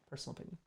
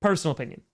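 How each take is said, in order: First: Near-silent muttered repeat; quiet aside. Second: Said in the usual way. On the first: Real, not acted. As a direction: drop it to almost nothing, under your breath. Repeated aside, second dropped away.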